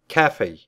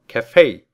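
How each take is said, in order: First: The stress is on the first syllable. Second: The stress is on the second syllable. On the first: This is how the British say it. "Если поставить ударение на первый слог, прочитав слово как «кафе», вам будут аплодировать англичане" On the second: This is how Americans say it. "Прочитайте с ударением на второй слог, сказав «кафе», станете близким другом американцев"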